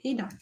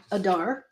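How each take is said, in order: First: Adar said AY-dar, like radar, softly; "Adar" with long stressed AY at the start; correct pronunciation. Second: Adar said uh-DAR, like "ajar"; "Adar" with a short weak first vowel, stress last; alternative pronunciation. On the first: Artist giving the correct name, soft AY-dar for Adar. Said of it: "it's actually Adar". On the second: Artist conceding the wrong version, uh-DAR for Adar. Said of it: "you could say Adar". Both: Shown as a demonstration.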